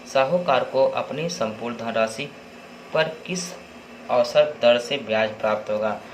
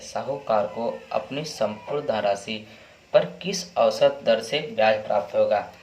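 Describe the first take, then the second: Both takes have the same delivery.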